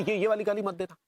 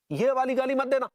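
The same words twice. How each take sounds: First: Said in the usual way. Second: Higher, heated warning; angry warning. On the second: Acted. Warning a phone caller against that insult, angry. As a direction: warn the caller off sharply.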